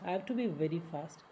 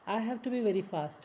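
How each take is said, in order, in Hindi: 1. 'have' हल्का बोला जाता है और पूरा साफ़ नहीं होता। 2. 'have' पूरा और साफ़ बोला जाता है।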